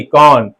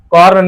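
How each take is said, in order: First: कॉर्न said as kɔn, no r; silent r demo. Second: कॉर्न with the r sounded; wrong take with R. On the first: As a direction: drop the r in कॉर्न. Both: Shown as a demonstration. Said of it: "कॉर्न नहीं".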